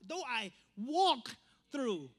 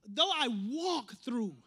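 First: "walk" drawn out, then a pause before "through"; stress on walk and through. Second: Said in the usual way. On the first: Shown as a demonstration. Preacher pointing out missed words, "walk" and "through" slow and separated. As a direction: set "walk" and "through" apart, slowly. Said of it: "people miss that word, walk and then through". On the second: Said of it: "Psalms twenty-three, it says".

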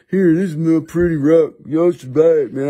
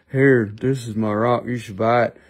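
First: Hammed-up character sales pitch; put-on seller voice. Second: Deadpan it like a seller without personality; dull rival seller. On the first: Seller begging buyers to take his rock, hammed-up voice. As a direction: push the rock in a silly put-on voice. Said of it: "we talk like this". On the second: Acted. Other seller pushing his rock, low and dreary. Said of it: "they're just like".

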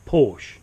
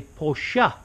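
First: Porsche as one syllable, PORSH; wrong pronunciation. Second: Porsche in two syllables, POR-shuh; correct pronunciation. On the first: Showing viewers how not to say it, Porsche as PORSH. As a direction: drop the final e of Porsche, "porsh". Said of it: "not Porsche". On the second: Giving viewers a little lesson, Porsche as POR-shuh. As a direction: sound the final e of Porsche as "uh". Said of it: "The same as you would say". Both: Shown as a demonstration.

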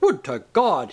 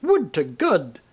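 First: "God" said with its normal open vowel; theatrical "God" with an open ah sound; usual "God" vowel. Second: "God" said as "good"; affected "God" with the short oo of "good"; pronounced like "good". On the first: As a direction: intone "God" plainly, as in standard speech. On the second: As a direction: round "God" into "good", theatrically. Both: A narrator's reading. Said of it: "he was now pronouncing it good".

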